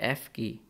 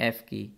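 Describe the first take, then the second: Both takes have the same delivery.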